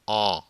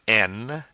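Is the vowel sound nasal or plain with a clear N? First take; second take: nasal; plain. First: It is a nasal vowel without a full N. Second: It ends with a clear N consonant. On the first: The speaker calls it right. "E N is a nasal sound" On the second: The speaker calls it wrong. "it's not N"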